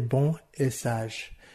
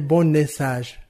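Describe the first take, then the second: First: The words stay separate with no linking consonant. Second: The final consonant links into the next vowel. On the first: The speaker calls it right. "Non, je dirais" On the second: The speaker calls it wrong. "Je ne peux pas dire non plus"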